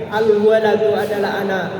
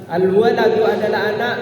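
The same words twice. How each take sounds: The two takes are said the same way.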